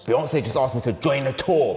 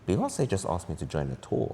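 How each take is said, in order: First: It sounds angry. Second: It sounds suspicious.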